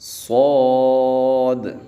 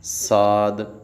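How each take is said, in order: First: The letter name sounds heavy and full. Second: The letter name sounds light and thin. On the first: The speaker calls it right. "सौद को मोटा पढ़ना है" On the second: The speaker calls it wrong. "इसको बारीक नहीं पढ़ना। साद ऐसे नहीं पढ़ेंगे"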